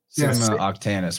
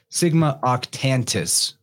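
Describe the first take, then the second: First: The second word has no t before its ending. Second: The second word has a t before its ending. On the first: The speaker calls it wrong. "We're probably pronouncing the Octanus part wrong" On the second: The speaker calls it right. "let's get it right. there's an extra syllable in or a consonant in there"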